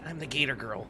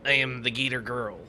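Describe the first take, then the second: First: The voice is softer and gentler. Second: The voice is harsher, not soft.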